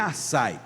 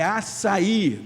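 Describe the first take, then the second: First: The final a and i merge into one syllable. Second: The final a and i form separate syllables. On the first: The speaker calls it wrong. "Não é um ditongo ... não é açaí" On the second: The speaker calls it right. "é um hiato, é açaí"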